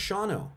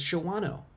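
First: "Shawano" said as SHAW-no; two-syllable pronunciation. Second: "Shawano" said as sho-WAH-no; three-syllable pronunciation. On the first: Explaining to viewers how it is not pronounced, "Shawano" as SHAW-no. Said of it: "it's not pronounced". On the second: Correcting viewers on the town's name, "Shawano" as sho-WAH-no. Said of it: "it's not pronounced Shawano". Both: Shown as a demonstration.

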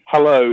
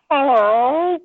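First: Said in the usual way. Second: High meowed hello, rising at the end; cat's hello. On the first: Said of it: "whenever you say to him". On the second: Retold or imitated. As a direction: meow it like an English cat saying hello. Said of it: "he kind of looks back and he goes".

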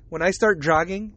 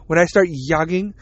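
First: Said in the usual way. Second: "yogging" said with a Y sound for the J; joke mispronunciation. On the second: Shown as a demonstration. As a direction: open "yogging" with "yuh", as a silly jogging. Jokey mispronunciation of jogging.

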